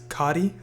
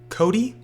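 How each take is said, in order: First: The name is said to sound like Cotty. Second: The name is said to sound like Cody. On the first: The speaker calls it right. "It's Cotty" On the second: The speaker calls it wrong. "everyone pronounces it Cody when it's not"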